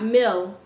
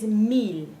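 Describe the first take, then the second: First: The i is an English-like vowel. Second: The i is a pure 'ee' vowel. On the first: The speaker calls it wrong. "not mil" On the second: The speaker calls it right. "This is mil"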